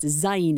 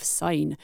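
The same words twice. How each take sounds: First: "zine" starting with a buzzed z, rhyming with "sign"; Syne with a Z. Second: "sign" starting with a clean, unvoiced s; Syne with an S. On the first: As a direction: say "zine" like "Zayn", voiced z first. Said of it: "sign pronounced zine instead of". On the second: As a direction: say "sign" with an s, never a z sound. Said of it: "zine instead of sign". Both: Shown as a demonstration.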